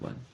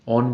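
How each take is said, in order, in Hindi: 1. यह 'won' शब्द जैसा बोला जाता है। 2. यह 'on' शब्द जैसा बोला जाता है। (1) "उसको वन नहीं बोलेंगे" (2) "ऑन बोलेंगे"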